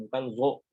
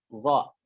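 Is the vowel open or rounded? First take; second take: rounded; open. First: The vowel is rounded with pursed lips. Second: The vowel is open without rounded lips. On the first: The speaker calls it wrong. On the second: The speaker calls it right.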